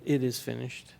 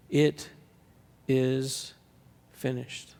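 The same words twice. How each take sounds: First: "It" stressed, softer and calm. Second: It... is... finished, each word slow with a pause between. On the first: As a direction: put the weight on "It". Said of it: "but, "It is finished". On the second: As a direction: let each word land on its own. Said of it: "Not, "I'm finished," not, "You're finished," but". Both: Shown as a demonstration.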